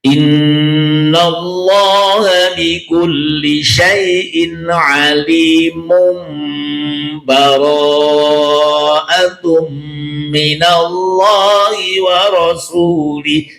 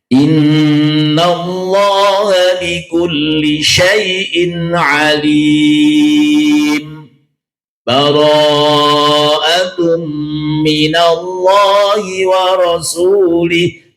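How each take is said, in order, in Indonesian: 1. Frasanya disambung tanpa jeda sama sekali. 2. Berhenti sebentar, tanpa napas, di antara frasa. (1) "dibaca wasol, disambung berarti tanpa bernafas" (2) "yang kedua dibaca saktah"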